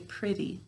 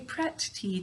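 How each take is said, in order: First: The sounds are relaxed, as in everyday speech. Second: Each sound is said carefully and distinctly. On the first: This is the form used in everyday talk. "When we're talking, we say pretty" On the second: This is the form used to spell the word. "we say pretty to spell it"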